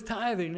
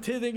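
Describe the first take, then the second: First: "tithing" with a long i, as in "tie"; the corrected long-vowel "tithing". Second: "tithing" with a short i, as in "tip"; the mistaken short-vowel "tithing"; mispronounced tithing. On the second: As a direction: say "tithing" as "TIH-thing". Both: Shown as a demonstration. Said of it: "it wasn't tithing, it was tithing".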